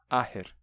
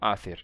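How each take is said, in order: First: The middle consonant is a plain h sound. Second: The middle consonant is a th sound. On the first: This is today's usual pronunciation. "Esse T H ficou só com som de h" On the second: This is the old pronunciation. "Isso é a pronúncia do gaélico antigo"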